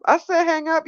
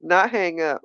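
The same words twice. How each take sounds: First: "said" pushed up high; stress on said. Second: Said in the usual way. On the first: Shown as a demonstration. Correcting a viewer, stressing "said". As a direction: hit "said" hard and high.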